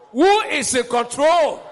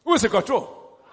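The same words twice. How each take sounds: First: Loud slow call. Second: Said in the usual way. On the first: Shown as a demonstration.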